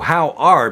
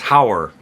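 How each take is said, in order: First: The two words are said separately and fully. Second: The two words blend into one short syllable. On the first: "how are becomes hower" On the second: "how are becomes hower"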